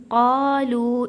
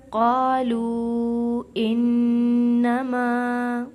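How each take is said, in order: First: قَالُوا with the first vowel held long, louder; stretched madd. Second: Slow, loud chant with the long vowels held; Quran recitation. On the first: Shown as a demonstration. Teacher shows students the short madd. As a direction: hold the قَا for three counts. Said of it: "اس کے اوپر چھوٹی مد نظر آ رہی ہے". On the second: Acted. Teacher recites the verse to students in chant. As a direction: sing it out like a reciter.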